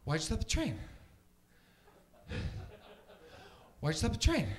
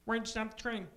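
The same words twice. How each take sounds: First: Winded, incredulous actor impression, jumping up on the last word; Mark Wahlberg. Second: Higher-pitched puppet frog voice imitating a movie actor; Kermit the Frog. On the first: Comic mimics a movie hero questioning the train crew, breathless impression. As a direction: ask it breathlessly, growing louder on the repeat. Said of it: "here's my impression of Mark Wahlberg". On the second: Frog puppet imitating an actor in a train scene, high puppet voice. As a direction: do a frog puppet asking in bewilderment. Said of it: "my impression of Kermit the Frog".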